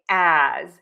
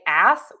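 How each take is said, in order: First: The word ends with a buzzing Z sound. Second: The word ends with a hissing S sound. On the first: The speaker calls it right. "we actually use the letter Z sound" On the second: The speaker calls it wrong. "many people say ass with an S"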